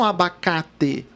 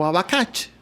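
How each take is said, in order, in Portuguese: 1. A última sílaba tem um t simples. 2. A última sílaba tem um som de tch. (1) "vocês não falam abacate" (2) "vocês falam abacate"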